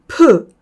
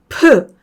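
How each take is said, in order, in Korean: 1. 자음 뒤에 모음 소리가 온전히 나요. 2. 자음 뒤에 모음 소리가 온전히 나요.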